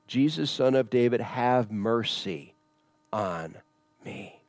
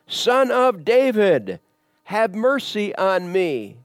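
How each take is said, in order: First: It is said at a normal volume. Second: It is said loudly, as a shout.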